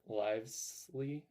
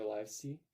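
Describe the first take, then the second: First: Livesey said slowly as LIVES-lee, with an L before the last vowel; tentative pronunciation. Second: Livesey said as LIVE-see, without a second L, rising like a question; alternative pronunciation. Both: Shown as a demonstration. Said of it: "I don't know how to pronounce it".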